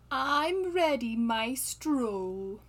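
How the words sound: It is said expressively, with character intonation.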